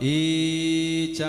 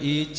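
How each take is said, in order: First: The first vowel is stretched far too long. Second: The first vowel has normal length. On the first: The speaker calls it wrong. "അത് വളരെ അരോചകരമായിട്ട് നമുക്ക് തോന്നും" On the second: The speaker calls it right. "ഈച്ച എന്ന് പറയേണ്ടടുത്ത്"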